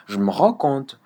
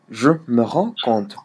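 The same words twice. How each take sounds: First: "je me rends compte" said as "je m'rends compte"; erased E. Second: "je me rends compte" with a full "me"; E sounded. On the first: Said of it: "tu l'effaces carrément". (« je me rends compte » avec le E de « me » effacé) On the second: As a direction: give "me" its own syllable in "je me rends compte". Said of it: "le E là de me". (« je me rends compte » avec le E de « me » bien prononcé) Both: Shown as a demonstration.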